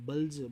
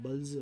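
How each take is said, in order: No difference in how they are said.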